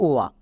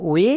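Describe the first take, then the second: First: "ও আ" glided as o into open aa. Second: "ও এ" glided as o into e. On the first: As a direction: sound out "ও আ", ending on an open aa. ("ও আ", শেষে আ ধ্বনি) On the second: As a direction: sound out "ও এ", ending on an e vowel. ("ও এ", শেষে এ ধ্বনি) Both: Shown as a demonstration. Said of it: "এর জন্য দু রকমের sound হয়".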